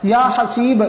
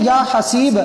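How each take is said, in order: Both takes have the same delivery.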